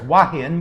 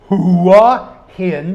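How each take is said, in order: First: The h sound is dropped from the first syllable. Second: The first syllable starts with a clear h sound. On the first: This is how people in the South say it. "Down here it's wahin because we're in the South" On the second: This is the standard way to say the name. "You always pronounce the hua"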